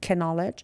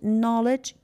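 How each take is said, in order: First: The K is sounded. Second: The K is not sounded. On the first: The speaker calls it wrong. "We don't say it" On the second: The speaker calls it right. "K is silent"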